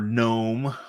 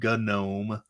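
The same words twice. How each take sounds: First: The word starts with a silent G. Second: The word starts with a hard G sound.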